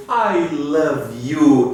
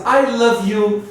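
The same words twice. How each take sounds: First: I love you, each word slow and clear; slow model reading. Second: Said in the usual way. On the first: Shown as a demonstration. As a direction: say it slowly for students to repeat. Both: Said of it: "a frase I love you".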